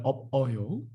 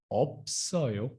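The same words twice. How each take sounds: First: 없어요 said eop-eo-yo, no s; wrong unlinked reading. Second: 없어요 said eop-sseo-yo with a clear s; correct linking. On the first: Teacher shows what not to say, 없어요 as eop-eo-yo. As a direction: drop the s in 없어요, stopping after p. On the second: Teacher models the right form, 없어요 as eop-sseo-yo. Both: Shown as a demonstration. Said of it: "Not a 없어요".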